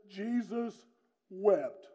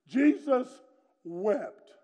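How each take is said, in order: First: Jesus, pause, wept, slow and solemn; solemn slow reading. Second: Jesus lifted, then wept dropped; emphatic reading. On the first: Preacher reading the shortest verse to his church, solemn and slow. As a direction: let a pause hang between Jesus and wept. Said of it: "it reads like this". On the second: Preacher repeating the verse for young folks, emphatic. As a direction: lean hard on Jesus, let wept fall. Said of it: "That's a good one". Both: Shown as a demonstration.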